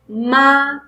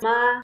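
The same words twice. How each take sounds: First: The pitch rises from middle to high. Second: The pitch stays high and level. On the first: "second tone is going to be rising tone" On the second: "the first tone is flat tone"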